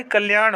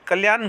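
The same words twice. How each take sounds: First: कल्याण ending in curled-tongue ṇ; correct retroflex n. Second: कल्याण ending in plain n; tongue at the teeth for कल्याण's n; wrong dental n. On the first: Teacher giving students the right form, retroflex n. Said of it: "होता है सही". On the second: Teacher showing students the mistake, plain n. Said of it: "गलत होता है". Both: Shown as a demonstration.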